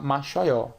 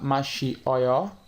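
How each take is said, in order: First: The vowels i and o merge into one sound. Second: The vowels i and o are said separately. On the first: The speaker calls it right. "o correto é falar machoió" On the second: The speaker calls it wrong. "ao invés de falar machi oió"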